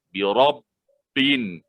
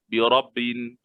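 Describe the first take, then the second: First: The doubled b is pressed with emphasis. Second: The doubled b is said lightly, unpressed. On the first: The speaker calls it right. "Kita tekan dia" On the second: The speaker calls it wrong. "Kalau bersahaja"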